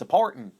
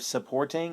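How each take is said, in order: First: The ending is said with an 'in' sound. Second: The ending is said with a full 'ing' sound. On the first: "our ings tend to sound like ins" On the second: "instead of supporting"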